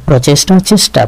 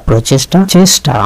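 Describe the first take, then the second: No difference in how they are said.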